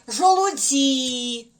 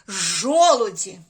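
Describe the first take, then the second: First: The stress is on the third syllable. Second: The stress is on the first syllable. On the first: The speaker calls it wrong. "А якщо сюди поставити? ... Так само неправильно" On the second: The speaker calls it right. "Правильно буде ось так"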